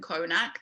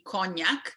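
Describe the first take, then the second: First: The middle consonant is a plain n. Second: The middle consonant is an ny sound. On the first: This is the simplified form used abroad. The speaker calls it wrong. "Konak also isn't Konak" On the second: This is the original form of the name. The speaker calls it right. "That's meant to be cognac"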